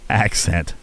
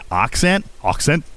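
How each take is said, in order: First: Accent with "a" as in "cat", low and falling; own pronunciation. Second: Put-on accent as AHK-sent, lifted like a question; imitating listener's pronunciation. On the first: Shown as a demonstration. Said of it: "I can't even say it how you're saying it". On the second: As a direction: try accent with a broad "ah", rising. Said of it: "how you're saying it".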